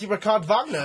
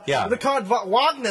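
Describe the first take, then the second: First: Wagner begins with a V sound. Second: Wagner begins with an English W sound. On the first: The speaker calls it right. "the W makes us the V sound in German" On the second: The speaker calls it wrong. "So it's not Ricard Wagner"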